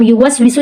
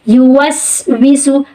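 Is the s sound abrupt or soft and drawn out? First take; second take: abrupt; soft. First: The s sound is cut short abruptly. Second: The s sound is soft and drawn out. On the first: The speaker calls it wrong. "एकदम से डायरेक्ट नहीं पढ़ते ... लफ्ज़ की अदायगी गलत हो रही है" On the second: The speaker calls it right. "हम बोलते हैं"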